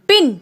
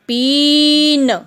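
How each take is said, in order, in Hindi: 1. स्वर को छोटा रखा जाता है। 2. स्वर को लंबा खींचा जाता है।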